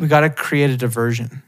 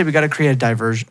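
First: "diversion" as dih-VER-zhun; diversion with short first vowel. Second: "diversion" as die-VER-zhun; diversion with long I. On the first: Testing it in a sentence, "diversion" as dih-VERSION. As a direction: say "diversion" with a light DIH start. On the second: Showing what they'd never say, "diversion" as die-VERSION. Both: Shown as a demonstration. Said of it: "I would never say".

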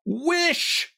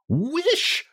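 First: Very high, drawn-out command; insist, leaving no room for refusal; insistent repeat. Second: Very high, commanding cry; strong cry. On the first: Wife presses her wavering husband, insistent. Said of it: "repeated his wife". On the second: Wife commands frightened husband to wish, strong cry. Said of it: "she cried in a strong voice". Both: A narrator's reading.

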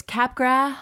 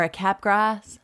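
First: "Capgras" ending on an open vowel, no S; silent final S. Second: "Capgras" with an audible S at the end; sounded final S. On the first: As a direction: say "Capgras" as CAP-grah, dropping the S. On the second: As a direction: say "Capgras" as CAP-grass, hissing the final S. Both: Shown as a demonstration. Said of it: "I've heard it pronounced a di".

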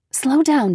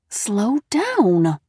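First: Said in the usual way. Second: Through gritted teeth. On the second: A narrator's reading. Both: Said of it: "Mom repeated through gritted teeth".

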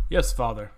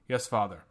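First: Reluctant groaning reply, louder; grudging groan at father; soft groan. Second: Polite, restrained reply; politely, keeping it in. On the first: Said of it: "I groaned softly". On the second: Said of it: "replied Falas politely". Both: A narrator's reading.

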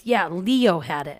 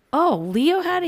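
First: Said in the usual way. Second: Mock surprise, higher and louder; a retold incredulous question. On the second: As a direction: act shocked that Leo had it. Her incredulous reply retold.

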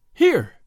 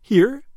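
First: High, loud burst of joy; the joy bursts out before she can stop it; joyful outburst. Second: High, loud rising question; can it be true, ask it breathlessly; eager question. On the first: Marguerite hears her husband returns, loud joyful exclamation. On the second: Marguerite presses the innkeeper about her husband, loud eager question. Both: A narrator's reading.

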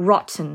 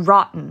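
First: Rotten with the T sounded; British rotten, T clearly there; British pronunciation. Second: Rotten with the T dropped; American rotten, no audible T; American pronunciation. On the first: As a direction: say rotten British-style, keeping the T. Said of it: "แบบ British เนี่ยจะอ่านว่า". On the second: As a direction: say rotten American-style, T swallowed before the n. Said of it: "ถ้าแบบอเมริกันจะอ่านว่า". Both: Shown as a demonstration.

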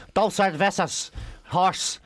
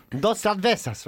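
First: Slow, unadapted Irish-accented Spanish. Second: Spanish words in an imitated local accent; put-on Spanish accent. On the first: Irish tourist ordering beers in Spain, Irish accent. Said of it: "you can't go over and say". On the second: What you have to say in Spain, put-on Spanish accent. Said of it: "make us put their accent on". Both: Shown as a demonstration.

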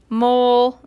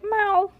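First: First stab at a cat's cry, loud; cat meow. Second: High-pitched kitty meow; cat meow. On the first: Reader's first try at the cat's cry, meowing. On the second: Reader correcting the cat's cry, meowing high. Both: A narrator's reading. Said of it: "I think that was like".

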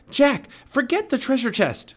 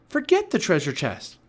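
First: Very high, loud urgent cry; Annie crying out. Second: Raised, high urgent voice; Annie insisting. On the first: Girl begging the boy to leave the chest, crying out. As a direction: shout to tear him away. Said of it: "cried Annie". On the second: Girl urging the boy to leave the treasure, insistent. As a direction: dismiss it firmly, pitched up. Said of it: "said Annie". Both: A narrator's reading.

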